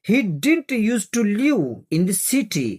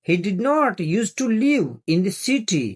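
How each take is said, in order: First: 'Did not' is shortened to one word 'didn't'. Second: 'Did not' is said as two full words.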